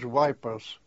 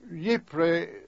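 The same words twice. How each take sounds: First: The name is said the British soldiers' way. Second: The name is said the local Belgian way. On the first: This is how soldiers said it back then. "It was known as Ypres" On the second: This is how local people say it today. "Ypres is the pronunciation the Belgian people use nowadays"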